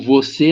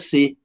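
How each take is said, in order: First: The word is said with both syllables. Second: The word is cut to a single syllable. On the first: This is the standard form. "O você nosso" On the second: This is how people from Minas say it.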